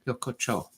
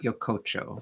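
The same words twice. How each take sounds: First: The syllables are more evenly weighted. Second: The middle syllable is strongly emphasized. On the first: The speaker calls it right. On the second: The speaker calls it wrong.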